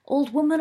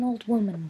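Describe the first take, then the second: First: Put-on higher, louder call of old woman with a rise; loud sing-song call. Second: Said in the usual way. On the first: A narrator's reading. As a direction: belt out woman with a lift at the end. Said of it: "he could do loud very well". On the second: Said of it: "Sirius picked up the rhyme".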